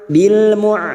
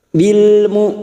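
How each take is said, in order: First: The syllable ends in a throaty 'ain' sound. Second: The syllable ends in a crisp, clean glottal stop. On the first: The speaker calls it wrong. "jangan tertukar ain, jangan dibaca bil mu'" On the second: The speaker calls it right. "hamzah sukun, sifatnya siddah"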